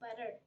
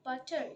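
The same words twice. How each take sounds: First: The middle consonant is a soft D-like sound. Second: The middle consonant is a crisp T sound. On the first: The speaker calls it right. "you should say butter" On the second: The speaker calls it wrong. "you should not say butter"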